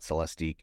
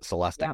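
First: The ending is spelled out as 'I-Q'. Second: The ending sounds like 'tick'. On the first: This is not how the maker says the name. The speaker calls it wrong. "not Celestiq" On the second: This is how the maker says the name. The speaker calls it right. "they called it Celestiq"

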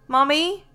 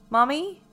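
The two takes are said the same way.

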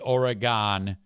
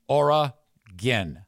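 First: The last syllable sounds like 'gone'. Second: The last syllable sounds like 'gin'. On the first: The speaker calls it wrong. "if you say Oregon, that is a problem" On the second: The speaker calls it right. "That's how you say it"

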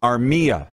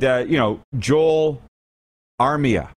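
First: The middle syllable of the name is stressed. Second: The middle syllable of the name is unstressed. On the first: The speaker calls it right. "Middle syllable" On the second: The speaker calls it wrong.

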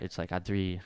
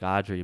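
First: The name is said with Spanish-style R and D. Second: The name is said like the English name Audrey. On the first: The speaker calls it right. "but it's like Adri" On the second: The speaker calls it wrong. "I say it like Audrey"

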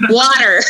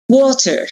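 First: It is said in an American accent. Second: It is said in a British accent.

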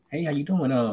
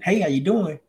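First: The voice is low, flat and monotone. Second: The voice is high, lively and youthful. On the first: The speaker comes across as older. The speaker calls it right. "Now I'm talking all low and monotone to where I'm sounding older" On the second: The speaker comes across as young. The speaker calls it wrong. "you're sounding too much like a kid"

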